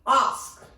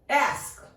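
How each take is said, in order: First: "ask" with long AH, "ahsk"; British pronunciation. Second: "ask" with short A as in "cat"; American pronunciation. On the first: Teacher showing learners British "ask", said "ahsk". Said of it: "In British English". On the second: Teacher showing learners American "ask", vowel as in "cat". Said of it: "In American pronunciation". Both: Shown as a demonstration.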